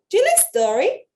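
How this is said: It is said in a rude, snotty tone.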